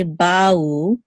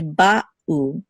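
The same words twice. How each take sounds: First: Ba'u run into one gliding syllable, like "bow"; slurred together. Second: Ba'u with a clear pause between ba and u; distinct syllables. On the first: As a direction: slide ba straight into u in ba'u, no break. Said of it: "We don't want to slur these together". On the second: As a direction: stop after "ba", then start "u" afresh in ba'u. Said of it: "there should be a distinct". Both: Shown as a demonstration.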